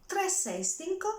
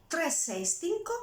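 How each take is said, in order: No difference in how they are said.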